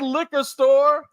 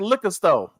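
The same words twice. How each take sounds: First: The R sounds are clearly pronounced. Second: The R sounds are dropped. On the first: "We don't say liquor store" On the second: "We say liquor store"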